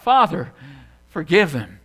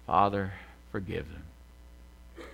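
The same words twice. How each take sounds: First: Loud retold cry, falling in pitch. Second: Low, soft and very slow; sighed prayer. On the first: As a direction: call it out to heaven, pausing after Father. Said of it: "he cried out". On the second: Retold or imitated. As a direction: sigh it out, drawn out and spent, imitating a dying plea. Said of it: "he sighed".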